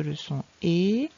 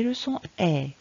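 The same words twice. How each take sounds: First: "E" said as closed é, rising; "le son E" ending on a tight é, pitched upward; closed é sound. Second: "E" said as open è; "le son E" ending on an open è; open è sound. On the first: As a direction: make "E" a narrow "é". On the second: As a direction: make "E" a wide "è", falling in pitch. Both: Shown as a demonstration. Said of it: "bien faire la différence".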